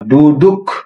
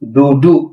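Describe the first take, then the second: First: The word ends with a k sound. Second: The word ends with a vowel. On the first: The speaker calls it wrong. "কিন্তু আমরা ডুডুক বলবো না" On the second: The speaker calls it right. "আমরা বলবো ডুডু"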